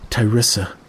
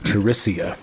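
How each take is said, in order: First: The name ends in a short '-issa' sound. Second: The name ends in a longer '-issia' sound. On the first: The speaker calls it wrong. "I mispronounced her name" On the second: The speaker calls it right. "Her name is Tyrissia"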